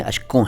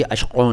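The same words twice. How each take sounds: First: अश्कों with an ordinary k, no throaty q; correct plain k. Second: अश्कों with a throaty q in place of k; wrong dotted k. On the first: Teacher correcting learners, plain k in अश्कों. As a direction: say अश्कों with a simple k. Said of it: "अश्कों नहीं है". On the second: Teacher showing a learners' mistake, back q in अश्कों. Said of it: "का के नीचे नुक्ता लगा देते हैं". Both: Shown as a demonstration.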